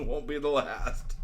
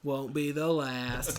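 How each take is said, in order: First: Slow, drawn-out echo; slow imitation of a rogue's boast; mimicked boast. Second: Low, slow, softer delivery; slow, knowing low growl of a line; acted boast. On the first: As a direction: stretch it out in mock swagger. Co-host echoes it higher. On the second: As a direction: drawl it low as an old rogue. Acting Shipwreck's brig boast.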